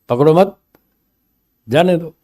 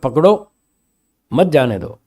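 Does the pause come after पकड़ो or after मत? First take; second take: after मत; after पकड़ो. First: The pause comes after the word मत. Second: The pause comes after the word पकड़ो. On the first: Do not catch him; let him go. "पकड़ो मत, जाने दो, तो वो नहीं पकड़ेगा" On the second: Catch him; do not let him go. "मत शब्द को अलग कर दे और पकड़ो, मत जाने दो"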